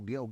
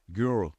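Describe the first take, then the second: First: The word is said with a plain 'e' vowel. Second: The word is said with an r-colored 'ur' vowel. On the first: The speaker calls it wrong. "o cara não falava isso" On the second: The speaker calls it right. "o cara falava assim"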